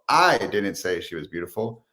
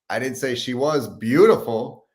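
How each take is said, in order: First: The word "I" carries the main stress. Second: The word "beautiful" carries the main stress.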